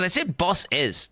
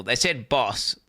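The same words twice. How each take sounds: First: "boss is" drawn out slowly, higher; stressed plural BOSS IS. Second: Said in the usual way. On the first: Real, not acted. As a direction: stretch "boss is" to make the plural ending clear. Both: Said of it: "They definitely said plural bosses".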